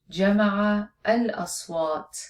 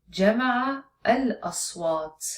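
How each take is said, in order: Both takes have the same delivery.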